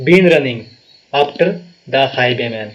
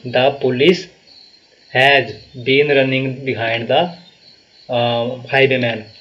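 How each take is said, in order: First: "been" and "after" lifted and pressed as the fix; corrected version. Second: "has been running behind" read very slowly, word by word; slow wrong version. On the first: Teacher gives students the corrected sentence, firm stress on been. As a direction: land on the corrected words firmly. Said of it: "तो has भी नहीं होगा, have होगा". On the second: Teacher reads students the wrong sentence, very slow and deliberate. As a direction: lay out the faulty sentence slowly for correction. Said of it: "behind यहाँ पे नहीं होगा". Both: Shown as a demonstration.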